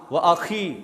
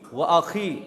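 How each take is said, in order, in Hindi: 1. व्यंजन एक खरखरी, घर्षण वाली kh ध्वनि है। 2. व्यंजन एक खरखरी, घर्षण वाली kh ध्वनि है।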